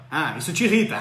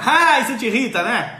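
First: Said in the usual way. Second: Louder, laughing through the words; amused, chuckle it out. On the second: Real, not acted. Repeating viewer Márcia's complaint, laughing.

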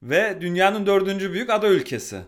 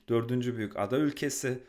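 First: Higher and louder, ada hit hard; emphatic. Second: Said in the usual way. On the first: Real, not acted. Host stressing the island's size to co-host, emphatic. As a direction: lean on ada to sell the fact.

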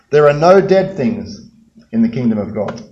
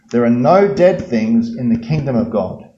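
First: Echoing angel voice. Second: Said in the usual way. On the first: Pretend. The angel speaking inside the empty tomb, echoing. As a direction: let it boom and echo like in a stone tomb. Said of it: "all they can hear is the angel's voice reverberating off the walls".

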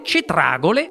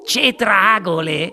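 First: Said in the usual way. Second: Slow, drawn-out incredulous question; mild shriek. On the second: A narrator's reading. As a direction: echo it slowly in disbelief. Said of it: "strillò Mike T V". (strillo incredulo e trascinato, non troppo forte)

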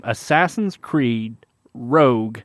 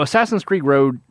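First: "Assassin's Creed Rogue" said slowly, each word clearly separated; careful slow pronunciation. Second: "Assassin's Creed Rogue" with "Creed Rogue" tangled and slurred together; stumbling over the name. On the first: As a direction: spell out "Creed" then "Rogue" deliberately and slowly. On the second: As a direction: trip over "Creed Rogue" as if tongue-tied. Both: Real, not acted. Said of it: "I can't say that name".

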